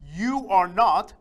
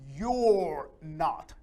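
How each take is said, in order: First: You and are are said as two separate words. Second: You and are merge into one short syllable.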